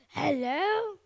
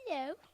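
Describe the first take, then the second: First: It is said in an angry tone. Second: It is said in a shy tone.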